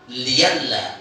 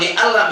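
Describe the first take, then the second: First: The middle has a y sound. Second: The middle has a glottal stop. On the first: This is the reading with the hamza replaced. "menjadi liyalla" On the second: This is the original form. "Kalau li Allah"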